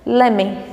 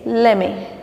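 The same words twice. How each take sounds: First: The words are run together as lemme. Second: The words are run together as lemme.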